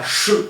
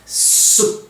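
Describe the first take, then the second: First: The consonant is a sh sound. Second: The consonant is an s sound. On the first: The speaker calls it wrong. "non pas CHE" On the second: The speaker calls it right. "mais bien SE"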